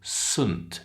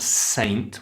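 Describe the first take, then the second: First: The vowel is reduced to a short weak sound. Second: The vowel is a full, long 'ay' sound. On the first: The speaker calls it right. "We say Saint Peter's School" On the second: The speaker calls it wrong. "It's not saint"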